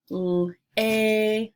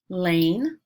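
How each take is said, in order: First: "L-a-n" with a long, held ay; roller-coaster word. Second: Said in the usual way. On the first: Shown as a demonstration. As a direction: separate l, stretch the ay, come down on n. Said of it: "putting an emphasis on the middle". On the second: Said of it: "some long vowel sounds".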